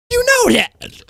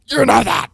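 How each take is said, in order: First: Way up high, drawn out and insistent; pointed emphasis. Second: Said in the usual way. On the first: Real, not acted. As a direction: shoot the pitch up to hammer it home. Pressing the point to chat.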